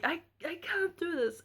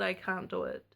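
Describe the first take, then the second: First: High, pleading cry of defeat; exhausted mother pleading with the midwife, high and desperate; desperate plea. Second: Said in the usual way. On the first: Retold or imitated. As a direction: beg to stop, pitched up. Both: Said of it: "the first time I had said".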